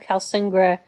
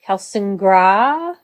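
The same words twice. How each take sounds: First: The final syllable is said short. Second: The final syllable is drawn out long.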